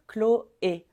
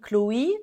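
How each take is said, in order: First: The name ends with an 'ay' vowel sound. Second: The name ends with an 'ee' vowel sound. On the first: The speaker calls it right. "tu veux dire Chloé" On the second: The speaker calls it wrong. "Tu veux pas dire i"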